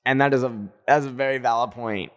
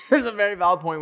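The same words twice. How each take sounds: First: Said in the usual way. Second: Laughing. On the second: Real, not acted.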